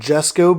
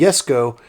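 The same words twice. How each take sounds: First: The name begins with a J sound. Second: The name begins with a Y sound. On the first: The speaker calls it wrong. "A lot of people call it the Koenigsegg Jesko because it starts with a J" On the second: The speaker calls it right. "it's actually pronounced as a Y sound. So this is the Jesko"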